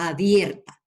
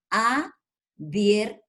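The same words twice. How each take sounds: First: Said in the usual way. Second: "Abierta" very slowly as a, bier, ta; syllable by syllable. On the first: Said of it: "Ahí me formó una sílaba". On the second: Shown as a demonstration. Teacher showing the syllable A, "Abierta" slowly split apart. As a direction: stretch "Abierta" into three separate syllables with pauses. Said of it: "Ahí está la sílaba A".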